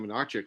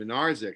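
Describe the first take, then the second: First: The middle consonant is a ch sound. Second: The middle consonant is a z sound. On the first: The speaker calls it wrong. "I was saying Minarchik last week" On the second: The speaker calls it right. "that's how you pronounce it"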